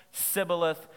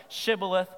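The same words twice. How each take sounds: First: "sibboleth" with a plain s in place of sh; "sibboleth", the enemy's s sound; wrong way with s. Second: "Shibboleth" with a clear sh sound; "Shibboleth" with a full sh at the start; right way. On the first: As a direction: say "sibboleth" starting on s. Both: Shown as a demonstration. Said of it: "that was the difference".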